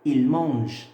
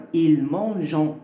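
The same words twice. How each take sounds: First: Il mange with a silent ending, no nasal; correct pronunciation. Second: Il mangeant with a nasal an ending, shown as the mistake; wrong reading demo. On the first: Teacher corrects the mistake for learners, modelling. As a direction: say il mange cleanly, the e not pronounced. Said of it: "on dit il mange". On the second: Teacher shows students a common mistake, demo voice. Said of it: "Et ça marche pas". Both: Shown as a demonstration.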